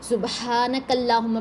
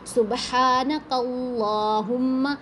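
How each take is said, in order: First: The L sound is light and thin. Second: The L sound is heavy and full. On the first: The speaker calls it wrong. "ये सबसे common mistake हमारी" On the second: The speaker calls it right. "तजवीद का ख्याल रखते हुए इसको भी पढ़ना है"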